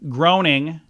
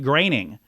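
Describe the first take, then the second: First: The first vowel sounds like 'oh'. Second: The first vowel sounds like 'ay'. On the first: The speaker calls it wrong. "You want to say Groening, but the O E" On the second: The speaker calls it right. "more like uh, an A Y, making the correct pronunciation like graining"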